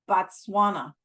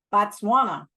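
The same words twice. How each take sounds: First: Said in the usual way. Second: "Botswana" slipped out as a half-hearted mock cough. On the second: A narrator's reading. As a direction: mumble "Botswana" as if hiding it in a light cough. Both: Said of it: "I cough said".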